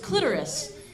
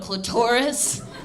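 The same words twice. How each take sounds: First: The word is said lightly and softly. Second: The word is said heavily and forcefully. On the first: The speaker calls it right. "Like just real light and soft" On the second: The speaker calls it wrong. "really lean into calling it"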